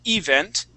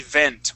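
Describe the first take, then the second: First: The stress is on the first syllable. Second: The stress is on the second syllable. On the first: The speaker calls it wrong. "you had said event" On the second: The speaker calls it right. "with the accent at the end"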